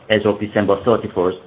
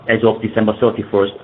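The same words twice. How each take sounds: The two takes are said the same way.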